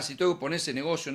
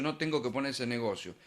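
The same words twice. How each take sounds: First: Said in the usual way. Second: The negative option, said lower and softer. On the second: Shown as a demonstration. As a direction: drop the voice on the "no" version, falling to the end.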